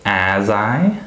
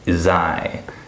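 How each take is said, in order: First: The word 'as' has a full vowel. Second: The word 'as' is reduced to 'is'. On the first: The speaker calls it wrong. "I don't say as I" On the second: The speaker calls it right. "The word as is reduced to is"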